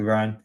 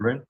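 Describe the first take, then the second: First: The name is pronounced as Brian. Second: The name is pronounced as Bryn. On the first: "I'm pronouncing it Brian" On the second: "you call him Bryn"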